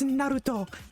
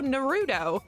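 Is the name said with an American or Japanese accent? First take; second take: Japanese; American. First: The name is said with a Japanese accent. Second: The name is said with an American accent. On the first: The speaker calls it right. "it's Naruto" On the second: The speaker calls it wrong. "I called him Naruto in an American accent"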